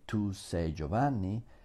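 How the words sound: It is said with statement intonation. It states that the listener is Giovanni. "I mean you are Giovanni"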